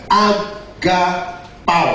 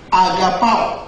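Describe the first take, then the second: First: "agapao" slowly split into A, ga, pao; syllable by syllable. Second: Said in the usual way. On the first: Shown as a demonstration. Preacher teaching congregation a Greek word, "agapao" syllable by syllable. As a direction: spell out "agapao" in three slow, separated syllables. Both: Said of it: "dalam bahasa Yunani mengatakan".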